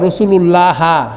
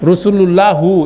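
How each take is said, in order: First: The word ends with a short a vowel. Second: The word ends with a short u vowel. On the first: "এটার উচ্চারণ এভাবে হবে না" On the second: "এটা কোনো সময় হবে না"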